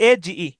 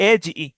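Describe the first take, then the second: The two takes are said the same way.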